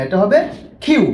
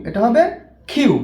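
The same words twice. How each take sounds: No difference in how they are said.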